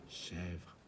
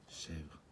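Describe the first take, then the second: No difference in how they are said.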